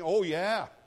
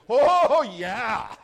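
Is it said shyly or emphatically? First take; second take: shyly; emphatically. First: It is said shyly and unconvincingly. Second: It is said boldly and with conviction.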